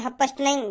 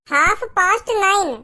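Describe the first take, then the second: First: "हाफ पास्ट नाइन" run together at an everyday pitch; "हाफ पास्ट नाइन" in a hurried, casual run; quick version. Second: "हाफ पास्ट नाइन" slowly, word by word, higher pitch; "हाफ पास्ट नाइन" stretched out and clearly separated; slow demonstration. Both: Acted. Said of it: "पर मैं थोड़ा जल्दी जल्दी बोल रहा हूँ".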